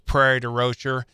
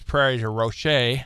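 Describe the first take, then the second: First: The name is said with American English sounds. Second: The name is said with French sounds.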